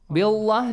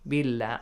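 First: The l sound is heavy and full. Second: The l sound is light and thin. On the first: The speaker calls it wrong. "Heavily? Billah, do you say?" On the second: The speaker calls it right. "Lightly, yes"

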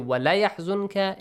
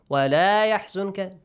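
First: The vowel in la is short. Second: The vowel in la is long. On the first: It tells the listener to grieve. The speaker calls it wrong. "If you say وَلَا يَحْزُنْكَ, it makes an emphasized meaning that, yeah, grief, be sad" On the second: It tells the listener not to grieve. The speaker calls it right. "don't be sad, don't grieve"

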